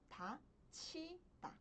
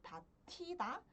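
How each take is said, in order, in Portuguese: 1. A sílaba do meio começa com um ch aspirado. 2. A sílaba do meio começa com um t aspirado. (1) "pronuncio como" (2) "Ao invés de pronunciar como"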